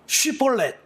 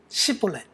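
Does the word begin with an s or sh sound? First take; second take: sh; s. First: The word begins with an sh sound. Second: The word begins with an s sound. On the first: The speaker calls it right. "쉬폴렛이라고 말해라" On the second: The speaker calls it wrong. "에스에이치 발음이 안 되고 S 발음밖에 안 되는"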